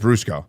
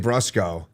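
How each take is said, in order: First: The name is said with an Italian pronunciation. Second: The name is said with an American pronunciation. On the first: This is how some family members say the name. "some people in my family say Brusco" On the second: This is how the speaker personally says the name. "I say Brusco. Uh, it's very Americanized"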